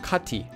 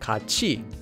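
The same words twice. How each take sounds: First: The middle consonant is a t sound. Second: The middle consonant is a ch sound. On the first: The speaker calls it wrong. "and not 같이" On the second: The speaker calls it right. "this word would be pronounced as 같이"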